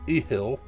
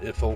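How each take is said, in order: First: The word has no 'th' sound in the middle. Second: The word has a 'th' sound in the middle. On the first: The speaker calls it right. "There's no T in it" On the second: The speaker calls it wrong. "I always pronounce that wrong"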